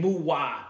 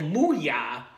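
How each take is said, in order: First: The middle consonant is a 'w' sound. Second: The middle consonant is a 'y' sound. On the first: The speaker calls it wrong. "I kept saying Muwa" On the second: The speaker calls it right. "it isn't Muwa. So Muya"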